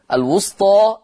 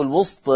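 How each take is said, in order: First: الوسطى ending in a full open long aa; teacher's demo of الوسطى with an untilted final aa; with fath. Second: الوسط said wustee, final vowel tilted halfway from aa toward ee; with taqlil. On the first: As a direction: open the final vowel of الوسطى wide, wustaa. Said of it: "هكذا بالفتح أو بالتقليل". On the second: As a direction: demo of الوسط with a half-inclined long ending. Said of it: "أو بالتقليل". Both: Shown as a demonstration.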